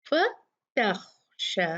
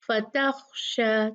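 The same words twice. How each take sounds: First: फतख्शा with ता light and खा heavy; slow correct recitation; light taa, heavy khaa. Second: फतख्शा with the ता wrongly made heavy; mock error, heavy ता; wrong heavy taa. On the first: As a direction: keep ता light, make खा thick. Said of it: "इसको कैसे करेंगे?". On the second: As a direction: thicken ता in फतख्शा as the mistake. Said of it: "तो इसको फतख्शा ना करें". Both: Shown as a demonstration.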